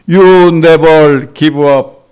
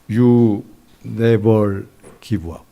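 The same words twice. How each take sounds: First: It is shouted loudly. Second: It is said softly and deliberately. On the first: "큰 소리로 외칩니다" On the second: "또박또박 작은 목소리로"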